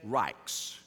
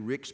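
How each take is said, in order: First: The surname is pronounced the German way. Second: The surname is pronounced the English way. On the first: "I'm giving that the German pronunciation" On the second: "It may be Ricks"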